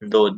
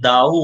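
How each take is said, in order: First: The vowel is a steady 'o'. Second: The vowel glides like 'ow'. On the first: The speaker calls it right. "जैसे गिनती वाला दो होता है" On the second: The speaker calls it wrong. "भले दाऊ वो ना पढ़ते नहीं"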